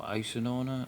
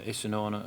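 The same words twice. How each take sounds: First: "Isanona" second pronunciation, still unsure; second try at Isanona. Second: "Isanona" said one way, tentatively; "Isanona" first pronunciation, unsure; first try at Isanona. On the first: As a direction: offer "Isanona" as the alternative pronunciation. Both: Shown as a demonstration. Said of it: "not quite sure how you're supposed to pronounce his name".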